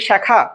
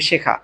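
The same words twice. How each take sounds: First: The first vowel is open, like 'ae'. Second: The first vowel is closed, like 'e'. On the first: The speaker calls it wrong. "তা আমি কি উচ্চারণ করি শেখা? না" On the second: The speaker calls it right. "আমি উচ্চারণ করি কি শেখা ... এ এর মতই হচ্ছে"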